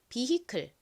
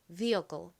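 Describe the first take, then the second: First: It is pronounced in a Korean-style way. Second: It is pronounced in an American-style way. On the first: "한국식으로 먼저 해보겠습니다" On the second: "이번에 미국식으로 발음해볼까요?"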